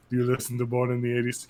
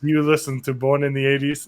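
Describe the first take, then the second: First: Put-on lower, softer, quick accented murmur; lightly put-on accent of a menacing killer; Anton Chigurh accent. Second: Said in the usual way. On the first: Killer at a listener's door, lightly put-on accent. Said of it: "He has that accent, too". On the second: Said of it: "And he says".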